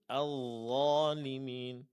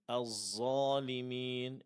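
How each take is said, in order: First: The consonant is a thick dh sound without hiss. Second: The consonant sounds like a hissing, thickened z. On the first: The speaker calls it right. "Yang benar" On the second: The speaker calls it wrong. "ini salah"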